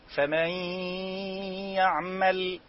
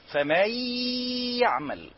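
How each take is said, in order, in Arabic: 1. الحروف تنساب بهدوء مع غنة. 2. الحروف تُضغط بقوة بدون غنة.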